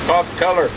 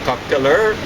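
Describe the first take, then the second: First: The stress is on the first syllable of killer. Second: The stress is on the last syllable of killer. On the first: The speaker calls it right. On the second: The speaker calls it wrong. "where they seem to accent last syllables"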